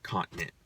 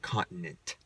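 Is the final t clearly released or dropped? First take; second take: dropped; released. First: The final t is soft or barely heard. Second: The final t is clearly and crisply released. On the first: This is how most people say it. "most people are just like" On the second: This is how one particular man says it. "he makes sure you hear that t at the end"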